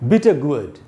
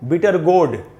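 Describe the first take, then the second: First: Gourd is said with a 'u' gliding to 'a'. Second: Gourd is said with a plain 'o' vowel. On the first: The speaker calls it right. "गु आधा अ और ड" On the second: The speaker calls it wrong. "इसको अपने देश में लोग पढ़ लेते हैं गोड"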